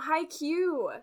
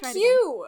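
First: The word is said flatly, without excitement. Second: The word is said with loud, hyped excitement.

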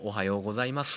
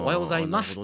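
First: The vowels are voiced and drawn out, Kyoto-style. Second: The vowels are crisply devoiced, standard-style.

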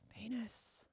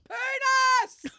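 First: The word is said softly and quietly. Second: The word is yelled out loudly.

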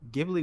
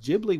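First: The word begins with a hard G sound. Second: The word begins with a soft J sound. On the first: "Ghibli would be a G" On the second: "Ghibli would be with a J"

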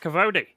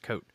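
First: The name is said as two syllables. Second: The name is said as one syllable. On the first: The speaker calls it wrong. "I'm going to be around going" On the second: The speaker calls it right. "thank God someone pronounced this for me"

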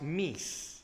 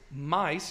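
First: It is said with the older vowel sound. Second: It is said with the modern English vowel. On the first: "which was actually pronounced meese" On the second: "And the word mice"

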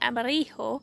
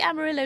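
First: It is said with a Spanish pronunciation. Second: It is said with an English pronunciation. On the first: It does not rhyme with pillow. The speaker calls it wrong. "not Amarillo" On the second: It rhymes with pillow. The speaker calls it right. "it has to be Amarillo ... because it has to rhyme with hugging my pillow"

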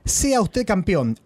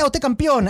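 First: It is read at a normal pace. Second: It is read very fast.

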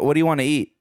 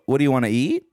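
First: The voice falls at the end. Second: The voice rises at the end.

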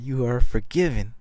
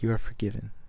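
First: It is said a little louder. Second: It is said at a normal, quiet level.

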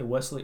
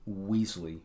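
First: The first vowel sounds like 'bed'. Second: The first vowel sounds like 'bee'. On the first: "wouldn't Wesley be spelled W-E-S-L-E-Y?" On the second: "I say Weasley"

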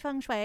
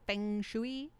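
First: The term is not sounded out as spelled. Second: The term is sounded out as it is spelled. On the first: "I always say feng shui because that's how I've always heard it" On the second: "pronounce it like it looks"

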